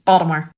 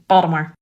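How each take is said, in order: First: It is said in an old-school Baltimore accent. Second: It is said in an old-school Baltimore accent.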